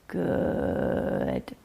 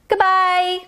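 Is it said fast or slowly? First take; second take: slowly; fast. First: It is said very slowly. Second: It is said very fast.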